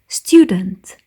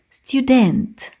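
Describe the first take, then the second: First: The stress is on the first syllable. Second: The stress is on the second syllable. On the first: The speaker calls it right. "Like we're saying student" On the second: The speaker calls it wrong. "not student"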